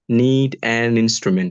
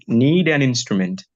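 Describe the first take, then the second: First: The words are said separately, not linked. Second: The words are linked as one word. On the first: The speaker calls it wrong. "Don't put it like a need an instrument" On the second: The speaker calls it right. "Like need an instrument"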